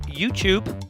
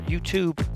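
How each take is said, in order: First: The second syllable begins with a ch sound. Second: The second syllable begins with a t sound. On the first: "almost like it's a C H and not a T" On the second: "as I know you Americans like to say"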